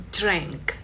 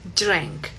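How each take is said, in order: No difference in how they are said.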